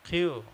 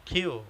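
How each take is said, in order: The two takes are said the same way.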